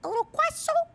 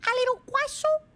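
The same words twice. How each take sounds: First: Tiny high squeaky cute voice; cutesy voice. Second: Put-on high squeaky baby voice, a bit louder; cutesy voice. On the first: Pretend. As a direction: say it like a tiny adorable pastry. Cute high voice for croissant emote. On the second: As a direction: coo it at a tiny pastry. Repeats cute croissant voice.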